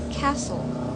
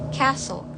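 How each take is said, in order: First: It is said in an American accent. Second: The same.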